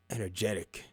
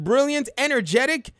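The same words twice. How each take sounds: First: Much softer and lower, a dry aside; sarcastic under-the-breath repeat; deadpan quiet echo. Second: Said in the usual way. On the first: Real, not acted. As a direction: drop it flat, almost to yourself. Repeats word after pause, deadpan.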